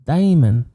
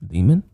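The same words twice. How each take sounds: First: "Demon" with a drawn DAY-mun first vowel; accented pronunciation. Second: Said in the usual way. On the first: Shown as a demonstration. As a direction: say "Demon" higher, as "daymun". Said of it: "Are you mocking my accent?". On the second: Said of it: "We just pronounce it demon".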